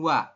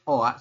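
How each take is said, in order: First: It is said as one syllable gliding into a. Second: It is said as two separate vowels, o then a. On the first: The speaker calls it right. "menurut aturan baca di sini Anda bacanya adalah langsung wa" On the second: The speaker calls it wrong. "Jadi harusnya kita bacanya oa seperti ini"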